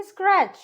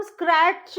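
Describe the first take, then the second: First: स्क्रैच said with a simple ch, T silent; स्क्रैच without a separate t; correct pronunciation demo. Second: स्क्रैच said with the T before ch sounded; स्क्रैच drawn out as skrat-ch; mispronunciation demo. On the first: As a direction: say स्क्रैच as one syllable. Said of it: "इसको हम बोलेंगे". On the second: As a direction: wrongly separate t and ch in स्क्रैच. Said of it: "नहीं बोलेंगे". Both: Shown as a demonstration.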